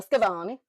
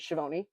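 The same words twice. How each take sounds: First: Schiavone with a hard Italian "sk" at the start; Italian pronunciation. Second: Schiavone with a soft American "sh" at the start; Anglicized pronunciation. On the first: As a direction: say Schiavone the Italian way, "skya-VOH-nee". Gives the Italian version after. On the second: Maiden name said two ways. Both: Shown as a demonstration.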